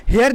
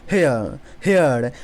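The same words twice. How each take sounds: First: हेयर with the R sounded; wrong take of हेयर with R; wrong pronunciation. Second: हेयर with the R silent, like hea; right take of हेयर, R dropped. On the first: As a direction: say हेयर pronouncing the R. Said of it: "हेयर नहीं". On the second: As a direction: say हेयर without the R. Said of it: "आर को silent को रखना है". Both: Shown as a demonstration.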